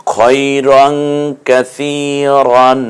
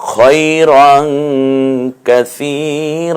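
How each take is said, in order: First: Chanted কাসিরন closing on n; slow recitation with কাসিরন ending "-ran"; unstopped tanween ending. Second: Chanted কাসির ending on a long open "ra"; slow recitation, কাসির held open as "raa"; one-alif stretch. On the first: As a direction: draw out কাসিরন and sound the final n. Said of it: "কাসিরন না বলে". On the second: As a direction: draw out the end of কাসির without an n. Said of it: "এক আলিফ টেনে বলবেন". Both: Shown as a demonstration.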